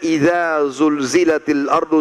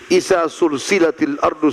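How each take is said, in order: First: The consonants are buzzing z sounds. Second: The consonants are hissing s sounds. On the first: The earth is shaken violently. "zai, bergetar lidah" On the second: The earth is joined together. "kita jadikan sin"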